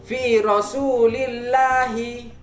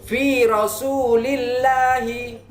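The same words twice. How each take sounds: The two takes are said the same way.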